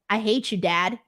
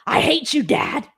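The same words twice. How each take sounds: First: It is said flatly, without real anger. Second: It is said with real, intense anger.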